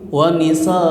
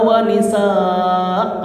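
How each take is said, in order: First: The final vowel is cut short. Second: The final vowel is held long. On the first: The speaker calls it wrong. "kalau kita nggak belajar tuh pasti wanisa begitu" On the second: The speaker calls it right. "tetap dibaca a"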